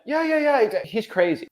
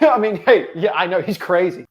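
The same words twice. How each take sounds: First: Imitating a hollow brush-off, high start dropping away; mock a rote, unconvinced agreement; passionless. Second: Amused agreement with a laugh in it; some passion. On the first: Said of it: "There's no passion behind that". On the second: Shown as a demonstration. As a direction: laugh along as you concede the point. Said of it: "I put some passion on that".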